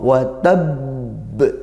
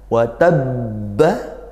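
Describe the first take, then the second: First: The word ends with a strong bouncing b. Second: The word ends with a final vowel. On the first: The reading stops at this word. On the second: The reading continues without stopping.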